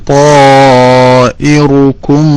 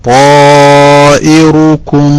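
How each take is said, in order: No difference in how they are said.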